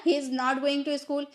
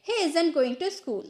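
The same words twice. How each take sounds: First: Said in the usual way. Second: "isn't" as one word, IZ-unt; contracted isn't. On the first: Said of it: "हम इस तरह से भी बोलते हैं". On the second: Shown as a demonstration. Teacher contrasting it with the full form, contracted "isn't". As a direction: run is and not together into "isn't". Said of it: "isn't का use करके बोलेंगे".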